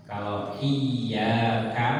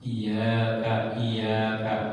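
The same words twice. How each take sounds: First: "iya kan" said very slowly with the y doubled; correct iyyaka. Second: "iya kak" with a single short y; wrong iyaka. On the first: Teacher shows the right reading to students, very slow. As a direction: stretch "iya" with a held double y. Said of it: "hanya kepadamu". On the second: Teacher demonstrates the mistaken reading, plainly. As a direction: say "iya kak" quickly without doubling. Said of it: "iya nggak ada tasdid". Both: Shown as a demonstration.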